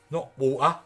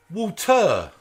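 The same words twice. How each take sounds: First: "water" with the t swallowed into a glottal stop, WAW-uh; "water" said the lazy way, no t; dropped t. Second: "Water" said with a clear t, WAW-tuh; crisp t in the middle of "Water"; "Water" spoken carefully, t sounded; proper pronunciation. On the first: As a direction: East London "water", t dropped. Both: Shown as a demonstration.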